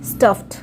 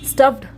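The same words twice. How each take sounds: First: The ending is pronounced as a t sound. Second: The ending is pronounced as a d sound. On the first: The speaker calls it right. "डी का sound ट होगा" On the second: The speaker calls it wrong. "स्टफ्ड नहीं बोलेंगे"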